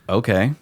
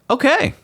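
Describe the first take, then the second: First: It sounds exasperated and dismissive, with flat energy. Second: It sounds eager and agreeable, with exclamatory energy. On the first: The speaker is annoyed and won't help. "what do you want me to do about it?" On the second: The speaker agrees to get the thing. "okay, I'm going to get you Spotify"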